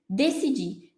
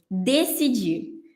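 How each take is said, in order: First: Said in the usual way. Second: "decidir." stretched very slowly, syllable by syllable; slow, drawn-out word. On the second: Shown as a demonstration. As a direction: draw out "decidir." like a key term on the board. (palavra "decidir." dita bem devagar, arrastada) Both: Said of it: "Quarto passo".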